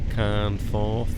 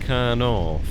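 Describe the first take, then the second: First: It is said with an f sound. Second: It is said with no f sound. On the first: The speaker calls it right. "I think it's supposed to be" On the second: The speaker calls it wrong. "I might have pronounced uh, um, is it Carnorth incorrectly"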